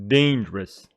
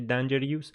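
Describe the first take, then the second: First: The stress falls on the first syllable. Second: The stress falls on a later syllable. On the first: The speaker calls it right. "dangerous is an adjective with the stress on the first syllable" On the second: The speaker calls it wrong. "Don't say dangerous"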